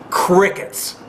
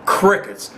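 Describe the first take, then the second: First: Breathy whisper, the word left hanging; a hushed, pointed crickets. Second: Said in the usual way. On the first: Real, not acted. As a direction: whisper it like the silence you mean. Mocking silence, rhetorical repeat.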